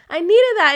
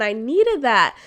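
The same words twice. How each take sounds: First: Much higher and louder; emphatic repeat. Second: Said in the usual way. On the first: Real, not acted. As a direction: burst out with it.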